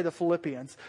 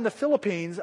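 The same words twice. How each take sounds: First: "Philippians" said as the Bible book, ending "-ee-ans"; corrected word "Philippians", ending in two syllables "pi-ans". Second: "Philippines" said like the island country, ending in "-peens"; stumbled word "Philippines", ending "-peens"; mispronounced PHILIPPINES. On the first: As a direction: say "Philippians" with stress on LIP. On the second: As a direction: slip and say "Philippines" with a long final "ee". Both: Real, not acted. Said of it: "I'm trying to say the Philippians".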